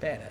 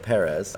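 First: The r sounds close to a d. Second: The r sounds like an English r. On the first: "full-on Spanish accent, with a little bit of a D" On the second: "I'm just going to go Perez, like Martin Brundle always does"

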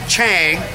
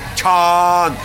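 First: The vowel is the 'a' of slang. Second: The vowel is an open 'ah' sound. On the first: The speaker calls it wrong. "like it rhymes with slang" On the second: The speaker calls it right. "like a long A-ah sort of sound, like the ah you make at the doctor's office"

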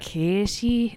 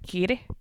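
First: It is said in a Midlands English accent. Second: It is said in a Northern Irish accent.

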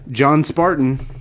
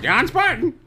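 First: It is said in his normal voice. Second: It is said in a squawky parrot voice.

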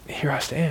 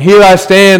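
First: It is said quietly and fearfully. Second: It is said boldly and strongly.

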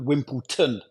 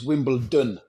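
First: The last syllable starts with a T sound. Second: The last syllable starts with a D sound. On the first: The speaker calls it wrong. "pronouncing it with a T" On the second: The speaker calls it right. "It's a D"

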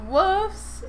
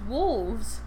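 First: It is said with an F sound before the s. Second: It is said with a V sound before the s. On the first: The speaker calls it wrong. "it's not wolves. There's no F in it" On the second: The speaker calls it right. "It's wolves. Spelled with a V"

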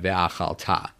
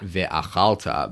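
First: The stress falls on the last syllable. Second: The stress falls before the last syllable. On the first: It marks the converted past form. The speaker calls it right. "the accent goes forward to the end of the verb" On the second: It reads as a plain past tense. The speaker calls it wrong. "not ve'achalta"

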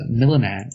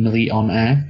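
First: The middle 'o' sound is skipped. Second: The middle 'o' sound is clearly pronounced. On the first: The speaker calls it wrong. "he misses the O in millionaire" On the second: The speaker calls it right. "it should be milli-on-air"

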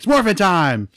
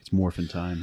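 First: It is shouted with big, dramatic energy. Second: It is said calmly, with low energy.

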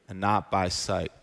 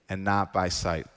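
The two takes are said the same way.

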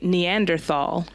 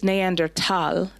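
First: The 'thal' is said with a th sound. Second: The 'thal' is said with a plain t sound. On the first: This is the English way of saying it. "But in English, we say Neanderthal" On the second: This is the German way of saying it. "in German, there's not a TH sound. There's not a th"

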